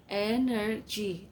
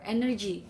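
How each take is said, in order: First: "Energy" slowly in three beats, EN-ER-GY; syllable by syllable. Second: Said in the usual way. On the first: Shown as a demonstration. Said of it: "three syllables". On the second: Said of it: "and the others".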